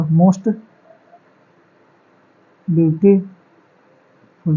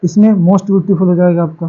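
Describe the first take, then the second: First: "most beautiful" drawn out very slowly, word by word; slow dictation. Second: Said in the usual way. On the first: Shown as a demonstration. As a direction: dictate it slowly while writing it on the board. (Board पर लिखते हुए बहुत धीरे-धीरे बोलना) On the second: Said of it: "most का क्या हो जाएगा".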